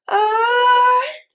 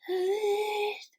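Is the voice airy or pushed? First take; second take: pushed; airy. First: The voice is pushed and forceful. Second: The voice is held back, airy and nasal.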